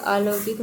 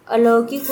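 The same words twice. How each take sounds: First: "अलौकिक" with long opening aa; wrong form demonstrated. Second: "अलौकिक" slowly, with short opening a; correct form demonstrated. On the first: Teacher rejecting misspelling, "अलौकिक" with stretched first vowel. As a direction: say "अलौकिक" as aa-lau-kik. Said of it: "नहीं होता है". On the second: Teacher giving right spelling, "अलौकिक" with short first vowel. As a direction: say "अलौकिक" as a-lau-kik. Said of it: "होता है". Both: Shown as a demonstration.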